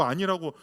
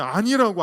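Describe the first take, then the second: First: Said in the usual way. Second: A louder, pleading no; mock tearful insistence; insistent refusal. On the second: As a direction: push the first 아니라고 out loud and firm. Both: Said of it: "막 울잖아요. 통곡하잖아요".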